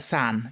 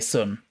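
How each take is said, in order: First: It is said with an exaggerated posh vowel. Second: It is said with a northern English vowel. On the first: "slightly sort of heightened and like extra posh" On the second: "you in your up north would say sun"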